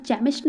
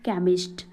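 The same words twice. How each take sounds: First: केमिस्ट misread with an initial "ch"; mispronounced केमिस्ट. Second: Said in the usual way. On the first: Shown as a demonstration. Teacher showing learners the misreading, केमिस्ट said with "ch". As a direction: say केमिस्ट as "chemist" with ch as in chair. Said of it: "इसको केमिस्ट नहीं पढ़ते". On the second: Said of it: "क्या पढ़ते हैं इसको".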